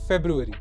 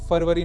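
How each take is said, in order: First: It is said as 'februari', beginning with 'feb'. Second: It is said as 'farvari', beginning with 'far'. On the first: The speaker calls it right. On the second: The speaker calls it wrong. "फरवरी नहीं"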